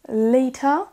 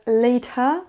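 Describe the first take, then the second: First: The middle consonant is a clear T sound. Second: The same.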